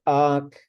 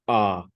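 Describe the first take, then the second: First: The word is said with a high tone. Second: The word is said with a low tone. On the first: It means in between two things. "the high tone version" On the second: It means a canyon, ravine or gorge. "there's a low tone one"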